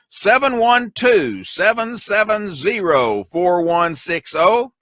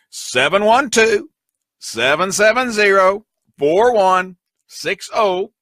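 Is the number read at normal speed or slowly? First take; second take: normal speed; slowly. First: The number is read at normal speed. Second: The number is read very slowly.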